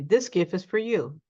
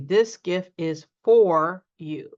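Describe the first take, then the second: First: The word for is quick and reduced. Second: The word for is fully pronounced. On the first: The speaker calls it right. "We simply say" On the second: The speaker calls it wrong. "So we don't often say"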